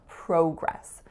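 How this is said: It is said with a Canadian pronunciation.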